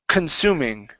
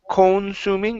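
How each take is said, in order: First: The first syllable has a reduced 'uh' vowel. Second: The first syllable has a full 'o' vowel. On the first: The speaker calls it right. "it's kun" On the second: The speaker calls it wrong. "instead of con"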